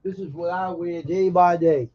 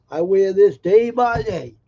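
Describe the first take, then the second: First: Said in the usual way. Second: Louder, slow stress on "day by day"; emphatic repeat. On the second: Real, not acted. Cowboy insisting on his hat to George, emphatic "day by day". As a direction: punch out "day by day", drawing each word out.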